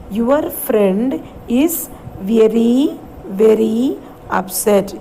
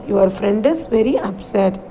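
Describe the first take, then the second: First: Slow, word by word; slow read-along. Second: Said in the usual way. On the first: Shown as a demonstration. Teacher models the sentence for grade five, slowly. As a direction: drag each word out for the children. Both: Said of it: "So let's read the sentence".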